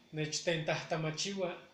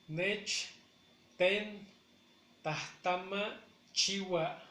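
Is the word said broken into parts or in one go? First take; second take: one go; broken up. First: The word is said smoothly without any pauses. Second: The word is broken up with pauses between parts.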